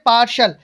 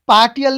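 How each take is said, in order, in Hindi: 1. बीच का व्यंजन sh की तरह बोला जाता है। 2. बीच का व्यंजन t की तरह बोला जाता है। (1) "क्या बोलेंगे पार्शल" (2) "पार्टियल नहीं बोलेंगे इसको"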